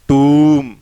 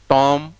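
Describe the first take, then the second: First: The vowel is a long 'oo' sound. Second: The vowel is a short 'o' sound. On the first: The speaker calls it right. "इसमें long ऊ का है" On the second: The speaker calls it wrong. "No"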